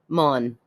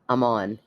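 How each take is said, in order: First: A Scottish accent runs the words together. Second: A plain accent keeps both words clearly separate. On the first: "I'm going to try to say it like her" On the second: "You don't say I'm on"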